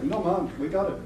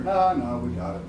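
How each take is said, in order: First: Lightly put-on Jamaican lilt; Jamaican-accented janitor, a little higher; imitated Jamaican accent. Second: Said in the usual way. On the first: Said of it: "they were from Jamaica". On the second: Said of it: "It was more like".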